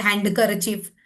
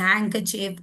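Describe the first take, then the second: First: Handkerchief with the d sounded, hand-ker-chief; wrong pronunciation. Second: Handkerchief with silent d, han-ker-chief; correct pronunciation. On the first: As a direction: voice the silent d in handkerchief. (handkerchief में d बोलकर, हैंडकरचीफ) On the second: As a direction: drop the d in handkerchief. (handkerchief में d silent, हैंकरचीफ) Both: Shown as a demonstration. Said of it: "it's not handkerchief".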